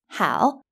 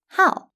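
First: The word is said with the third tone. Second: The word is said with the fourth tone. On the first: "It can be read in the third tone" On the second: "and also in a fourth tone"

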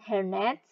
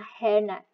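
First: The stress is on the second part, net. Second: The stress is on the first part, hair. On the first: A net made out of hair. "stress ada di second part atau di the last syllable" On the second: A net used to cover the hair. "Kalau compound di first syllable"

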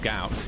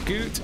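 First: The vowel sounds like the one in out. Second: The vowel sounds like the one in boot. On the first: The speaker calls it right. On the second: The speaker calls it wrong.

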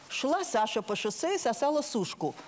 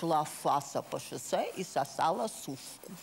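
First: The name begins with a clear S sound. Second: The name begins with an F sound.

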